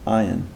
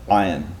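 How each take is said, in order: First: The word starts directly with a plain vowel. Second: The word starts with a sound deep in the throat. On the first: The speaker calls it wrong. "That's an unpronounced ayin" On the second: The speaker calls it right. "I'm saying ayin"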